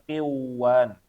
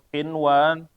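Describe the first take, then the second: First: The n sound is merged away. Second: The n sound is pronounced clearly. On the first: The speaker calls it wrong. "jangan dibaca kiwan" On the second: The speaker calls it right. "dibaca dengan jelas juga"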